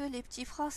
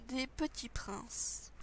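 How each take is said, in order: First: Said in the usual way. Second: Soft slow whisper. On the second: Acted. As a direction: breathe the words out slowly. Whispered name of the biscuits.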